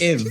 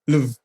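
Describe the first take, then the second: First: The name starts with a vowel, no L. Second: The name starts with an L sound.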